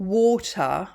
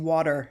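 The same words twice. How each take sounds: First: It is said with a British accent. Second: It is said with an American accent. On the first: "water in British" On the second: "we pronounce the letter T like a D"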